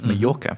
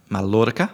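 First: The middle consonant is not pronounced as an L. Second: The middle consonant is pronounced as an L. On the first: This is how the name is said in Spanish. "we say it the Spanish way" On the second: This is how Czech speakers say the name. "as the Czechs like to say. They say it with a L"

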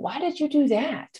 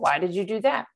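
First: It sounds warm and curious. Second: It sounds sharp and accusing. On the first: The asker genuinely wants to understand. "this positive and this energy around" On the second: The asker is blaming the listener. "someone's going to come at us"

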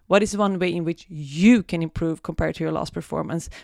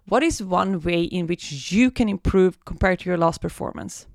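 First: The word 'you' is strongly emphasized. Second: The word 'you' gets no special emphasis.

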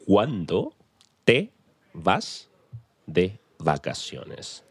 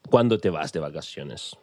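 First: It is said very slowly and deliberately. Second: It is said at normal conversational speed.

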